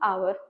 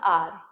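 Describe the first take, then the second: First: The word is said with two syllables, like 'ow-er'. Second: The word is said with one syllable, like 'ar'. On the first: The speaker calls it wrong. "It is not आवर guys" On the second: The speaker calls it right. "It is आर"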